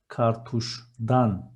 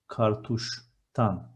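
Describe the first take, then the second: First: The suffix begins with a voiced d sound. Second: The suffix begins with a voiceless t sound. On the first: The speaker calls it wrong. "I want to say from cartridge" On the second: The speaker calls it right. "the suffix changes and it becomes"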